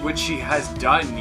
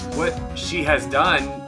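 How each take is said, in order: First: It is said in the other character's put-on voice. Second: It is said in the speaker's own character voice. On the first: The speaker calls it wrong. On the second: The speaker calls it right.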